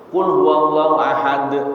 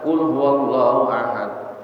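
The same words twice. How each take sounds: First: The final d ends with an echoing bounce. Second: The final d stops without any echoing release. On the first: "Ini di qalqalahnya" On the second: "tidak memakai qalqalah"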